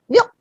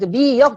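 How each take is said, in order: First: It is said as a single syllable. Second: It is said as two separate syllables. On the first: "한 음절처럼" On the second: "이렇게 발음 안 하고"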